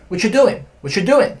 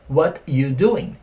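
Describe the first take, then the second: First: "What you doing" run together as whatchu doing; quick, linked "What you doing"; faster, informal. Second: Slow, separated "What you doing"; slow version. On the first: Teacher shows how natives say it, faster and contracted. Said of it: "eles falam mais rápido, né?". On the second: Teacher first shows students the dropped word, slowly. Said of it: "Só que eles falam mais rápido". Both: Shown as a demonstration.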